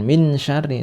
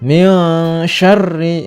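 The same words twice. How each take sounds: First: The n is pronounced clearly and distinctly. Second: The n is blurred into a nasal sound. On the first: The speaker calls it wrong. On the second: The speaker calls it right. "tidak jelas ya"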